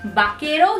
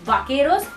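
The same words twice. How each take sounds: First: The word begins with a b sound. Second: The word begins with a v sound. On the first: The speaker calls it right. "it's vaqueros" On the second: The speaker calls it wrong. "it's not vaqueros"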